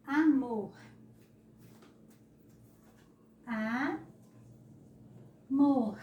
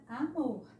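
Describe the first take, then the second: First: Amor loud, broken into a, long pause, MOR; syllables separated. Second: Said in the usual way. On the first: Shown as a demonstration. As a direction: split amor as a ... mor, pushing the last syllable. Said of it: "É assim que se separa a palavra amor". (amor separado em sílabas, com força) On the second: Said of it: "É assim que se separa a palavra".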